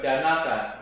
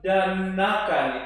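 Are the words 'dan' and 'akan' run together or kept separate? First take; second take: run together; separate. First: The two words run together as one. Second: The two words are kept clearly separate. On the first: The speaker calls it wrong. "bukan danakan" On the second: The speaker calls it right. "itu hati-hati"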